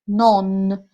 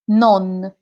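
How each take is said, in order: First: The final N is strongly exaggerated. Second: The final N is said naturally.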